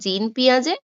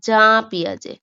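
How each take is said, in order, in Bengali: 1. প্রথম নামটি 'jeen' এর মতো শোনায়। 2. প্রথম নামটি 'zhah' এর মতো শোনায়। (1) "পিঁয়াজের সম্পূর্ণ নাম আছে জিন পিঁয়াজে" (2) "আবার অনেক জায়গায় উচ্চারণ আছে জা পিঁয়াজে"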